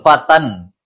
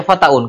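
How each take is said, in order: First: Fatan, plain a then nasal an ending; teacher models the correct form fatan, drawn out; correct reading fatan. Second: Fataun, wrongly sounding the tanwin as a-u-n; teacher shows the forbidden reading fataun. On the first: Teacher corrects students with the right reading, fatan slowly drawn. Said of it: "fatan, gitu kan?". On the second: Teacher demonstrates to students the wrong reading, fataun said as a-u-n. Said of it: "Nggak boleh dibaca fataun". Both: Shown as a demonstration.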